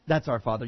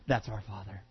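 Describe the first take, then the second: First: Repeated lower but fuller, a hint of defiance; smug repeated boast. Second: Mock smug, pitched low and soft; a lightly voiced proud listener, dropped down low; smug low muttered boast. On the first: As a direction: press the boast a second time, still low.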